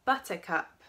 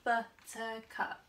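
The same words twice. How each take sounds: First: Said in the usual way. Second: Buttercup said slowly as but-ter-cup, each syllable apart; slow syllable split. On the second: Shown as a demonstration. Teacher slowly splitting Buttercup into syllables for children, careful and clear. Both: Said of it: "Buttercup has three syllables".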